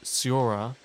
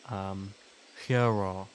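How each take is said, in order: First: It is read as an English speaker would. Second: It is attempted with a Norwegian-style pronunciation. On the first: "I'm gonna say how I would read it" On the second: "now this is the tough one"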